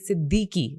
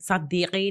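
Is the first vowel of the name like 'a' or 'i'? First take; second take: i; a. First: The first vowel sounds like short 'i'. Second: The first vowel sounds like short 'a'. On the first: The speaker calls it right. "Specifically कहते हैं सिद्दीकी" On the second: The speaker calls it wrong. "सद्दीकी नहीं"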